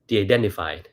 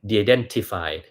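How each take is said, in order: First: The middle t is softened toward d. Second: The middle t is a clear t sound. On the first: This sounds like an American speaker. The speaker calls it right. "คุณลองฟังผมพูด" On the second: This is how a Thai reader would say it. The speaker calls it wrong. "ไม่ใช่"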